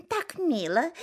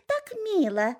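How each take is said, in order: First: High, sweet mock admiration; cooing turkey hens. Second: Higher, sweeter gushing; cooing turkey hens. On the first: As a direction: gush over it like a silly turkey hen. (умилённые индюшки) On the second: Acted. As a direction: gush even more, rising. (ещё выше, с умилением) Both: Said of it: "шейками покивали и сказали".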